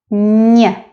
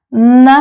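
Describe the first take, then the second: First: Н as a palatalized 'ny'; softened н. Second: Н as a hard 'n', unsoftened. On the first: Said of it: "soft sign makes the previous letter sound softer". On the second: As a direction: say н plainly without any 'y' colouring. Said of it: "That's the difference". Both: Shown as a demonstration.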